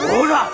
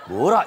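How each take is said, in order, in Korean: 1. 감탄사는 사극에서 외치는 것처럼 우렁차게 말해요. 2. 감탄사는 부드럽고 평범하게 말해요. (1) "이렇게 해요" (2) "이게 아니라"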